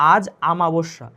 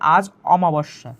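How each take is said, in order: First: The second word begins with an open 'aa' vowel. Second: The second word begins with a rounded 'o' vowel. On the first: The speaker calls it wrong. "আমরা ভুল করি ... এখানে আ এখানে হবে না" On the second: The speaker calls it right. "সঠিকটা হবে"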